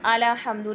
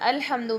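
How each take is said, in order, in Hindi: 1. L के बाद एक छोटा स्वर आता है। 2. L बंद है, इसके बाद कोई स्वर नहीं है। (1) "लाम को ज़बर दे दिया है" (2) "अलहम्दु में लाम साकिन है"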